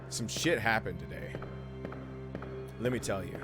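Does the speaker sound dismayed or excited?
dismayed. It is said in a dismayed, weary way. Something bad happened.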